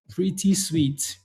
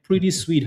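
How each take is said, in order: First: Savoring slowly. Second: Said in the usual way. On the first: Shown as a demonstration. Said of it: "Pretty sweet, huh?".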